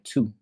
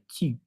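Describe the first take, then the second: First: The vowel is a Spanish-style 'oo' sound. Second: The vowel is a rounded French 'u' sound. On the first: "Like in Spanish, it's like tu" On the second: "but in French, it's like tu"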